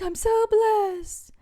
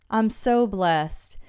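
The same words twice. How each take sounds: First: It is said in an exaggerated, showy churchy tone. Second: It is said in a plain, sincere tone. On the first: It is said just for show. The speaker calls it wrong. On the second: The gratitude is genuinely felt. The speaker calls it right.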